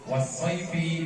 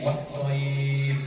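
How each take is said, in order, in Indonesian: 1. Kata ini berakhir dengan vokal pendek. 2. Kata ini berhenti pada konsonan terakhirnya.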